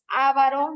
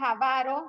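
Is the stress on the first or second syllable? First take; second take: first; second. First: The stress is on the first syllable. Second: The stress is on the second syllable. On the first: The speaker calls it wrong. "no digan ávaro porque no es una palabra esdrújula" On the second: The speaker calls it right. "la palabra es avaro"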